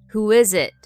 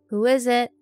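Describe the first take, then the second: First: It is said in a deeper, bassier voice. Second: It is said in a lighter, normal voice.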